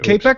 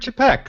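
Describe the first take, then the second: First: The name begins with a hard k sound. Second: The name begins with a ch sound. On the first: The speaker calls it wrong. "I've been pronouncing in my head K-Peck" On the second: The speaker calls it right. "the proper real pronunciation is Čapek"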